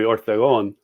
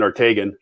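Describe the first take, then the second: First: The name is said with Spanish pronunciation. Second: The name is said with English pronunciation. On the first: This is the official form of the name. "the last name officially would be Ortegon" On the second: This is the form the family actually uses. "through our whole life, it's been Ortegan"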